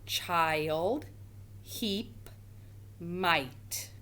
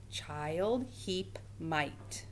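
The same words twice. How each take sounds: First: Said in the usual way. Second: Words repeated softly; softer repeat. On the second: Shown as a demonstration. Teacher quietly repeating the three words for the class. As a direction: say them again, quietly. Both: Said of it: "Tell me which word does not belong".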